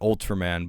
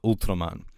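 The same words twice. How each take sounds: First: It is pronounced the usual English way. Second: It is pronounced in a Japanese-style way. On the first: This is the pronunciation intended. The speaker calls it right. "in my head, I was saying Ultraman" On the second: This is the habit picked up from talking with Japanese people. The speaker calls it wrong. "but it came out Ultraman"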